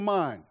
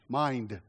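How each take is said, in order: First: The final d sound is dropped. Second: The final d sound is clearly pronounced. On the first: The speaker calls it wrong. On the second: The speaker calls it right.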